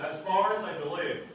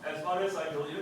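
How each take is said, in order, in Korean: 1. 강하게 말합니다. 음높이가 생동감 있게 올라갔다 내려갔다 합니다. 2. 평평하게 말합니다. 음높이 변화가 거의 없습니다. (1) "이렇게 세게 세게 세게 읽으세요" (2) "이렇게 하지 말고"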